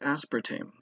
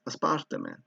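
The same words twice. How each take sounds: First: The word is said with an English accent. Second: The word is said with a Spanish accent. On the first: The speaker calls it right. "That's the correct way to say it" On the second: The speaker calls it wrong. "I'll pronounce it with a Spanish accent"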